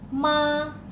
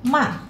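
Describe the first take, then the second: First: The pitch stays high and level. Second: The pitch falls sharply from high to low. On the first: "Nada pertama dibaca tinggi" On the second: "yang keempat turun saja agak cepat"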